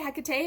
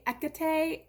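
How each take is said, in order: First: The name begins with an H sound. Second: The name begins with a vowel, no H. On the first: This is how an American says it. "I say Hecate because I'm an American" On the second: This follows the Greek pronunciation. "you don't pronounce the H at all"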